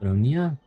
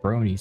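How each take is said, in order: First: The name ends with a 'ya' sound. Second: The name ends with an 'ee' sound. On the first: The speaker calls it right. "Sounds more like it" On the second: The speaker calls it wrong. "not pronouncing her name the way Alexander pronounced it"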